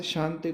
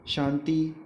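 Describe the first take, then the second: First: Said in the usual way. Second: शांति with the final i drawn out as long ee; long final vowel. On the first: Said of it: "लिखते ई है और कहते बड़े ई है". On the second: Shown as a demonstration. Teacher showing students' long-i mistake, शांति ending in long ee. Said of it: "कहते बड़े ई है".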